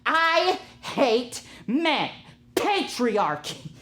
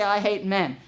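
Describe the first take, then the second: First: Slow, high-pitched, hammed-up outrage; mock furious rant. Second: Said in the usual way. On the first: Imitating a livid cashier storming into the kitchen, mock fury. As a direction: stretch every word in exaggerated fury. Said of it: "just stormed into the kitchen".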